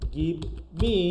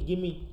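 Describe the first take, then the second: First: The v sound is pronounced before me. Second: The v sound is dropped, giving gimme. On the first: "যেমন হচ্ছে গিভ মি" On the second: "হয়ে যাচ্ছে কি গিমি"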